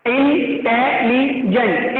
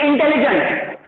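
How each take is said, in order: First: इंटेलिजेंट slow, in separate syllables: in, te, li, jent. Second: Said in the usual way. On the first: Shown as a demonstration. Teacher breaking the word down for class, slow syllable-split इंटेलिजेंट. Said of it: "लीजेंट के लिए दूसरा syllable लग रहा है". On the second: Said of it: "वैसे इंटेलिजेंट".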